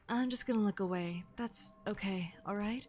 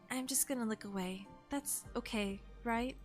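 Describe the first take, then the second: First: It is said in a sexy voice. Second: It is said in a plain voice.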